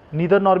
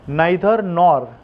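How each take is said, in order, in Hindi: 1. neither का पहला स्वर 'ee' जैसा बोला जाता है। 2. neither का पहला स्वर 'eye' जैसा बोला जाता है। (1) "नीदर नॉर भी बोल सकते हो आप" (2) "नाइदर नॉर बेटर ऑप्शन है"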